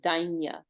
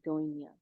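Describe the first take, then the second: First: The first vowel is an 'ai' sound. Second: The first vowel is an 'oi' sound. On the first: "Vasanji would probably say Dainya" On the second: "they really go for the O sound. So they say Doinya"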